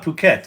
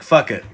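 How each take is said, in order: First: It is said like 'poo-ket'. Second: It is said like 'fuck it'. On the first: The speaker calls it right. "pronounce it Phuket" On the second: The speaker calls it wrong. "Because it looks like fuck it"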